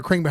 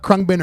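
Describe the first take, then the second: First: Second guess, Khruangbin as KRING-bin. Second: First guess, Khruangbin as KRUNG-bin. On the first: Shouting out the band, Khruangbin said as KRING-bin. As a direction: pronounce Khruangbin with "ih" up front. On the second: Shouting out the band, Khruangbin said as KRUNG-bin. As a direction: pronounce Khruangbin with "uh" up front. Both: Shown as a demonstration. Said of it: "don't even know how to pronounce".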